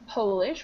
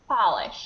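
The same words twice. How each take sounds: First: The first vowel sounds like 'oh'. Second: The first vowel sounds like 'ah'. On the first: The word names the nationality of someone from Poland. "The first one is an O" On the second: The word means to make something shiny. "the second one is an ah"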